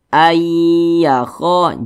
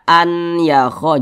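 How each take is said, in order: First: The n merges into a doubled y sound. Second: A separate n is heard before the y. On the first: The speaker calls it right. "Dibaca ayyakho" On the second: The speaker calls it wrong. "jangan dibaca an yakho"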